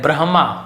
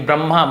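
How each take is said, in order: First: The h sound comes before the m sound. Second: The m sound comes before the h sound. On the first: The speaker calls it right. "Actual में एच पहले आता है" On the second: The speaker calls it wrong. "आपको एम पहले लगता है वहां पे"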